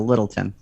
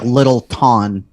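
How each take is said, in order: First: The name is said smoothly as one word. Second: The name is broken into two separate words. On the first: The speaker calls it right. "you got to say it all together" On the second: The speaker calls it wrong. "Not like Little Ton. That would be stupid"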